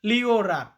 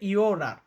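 First: The word begins with a clear L sound. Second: The word begins with a Y-like sound. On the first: The speaker calls it wrong. "ইংরেজির মতো উচ্চারণ করতে যান লিওরার, তাহলে হবে না" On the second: The speaker calls it right. "এটার উচ্চারণটা হবে ইওরার"

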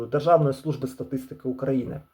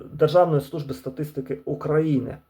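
The two takes are said the same way.

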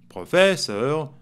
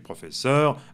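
First: The stress falls before the last syllable. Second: The stress falls on the last syllable. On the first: The speaker calls it wrong. "on ne dit pas" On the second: The speaker calls it right. "c'est plus quand même la, la dernière syllabe qu'on accentue"

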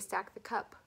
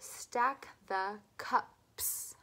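First: The final S sound is left off. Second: The final S sound is clearly pronounced. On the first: The speaker calls it wrong. "I don't want you to say stack the cup" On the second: The speaker calls it right. "Don't forget the last sound"

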